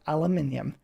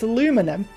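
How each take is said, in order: First: It is said the British way, five syllables. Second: It is said the American way, four syllables. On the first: This is the form the speaker uses. The speaker calls it right. "It is aluminium" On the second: This is the form Americans use when they correct people. The speaker calls it wrong. "Oh, it's aluminum"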